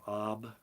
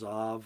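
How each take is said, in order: First: The word ends with a B sound. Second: The word ends with a V sound. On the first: "It's actually Aleph Bait Ab" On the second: "Sometimes the the bait is pronounced like a V"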